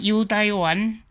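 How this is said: It is said with a Zhangzhou accent. "尾个漳州腔个时阵"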